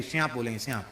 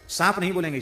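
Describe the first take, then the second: First: श्यांप with a softened sh sound; श्यांप in place of सांप; lisped pronunciation. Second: Said in the usual way. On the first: Shown as a demonstration. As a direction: say श्यांप the village way. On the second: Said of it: "श्यांप बोलेंगे".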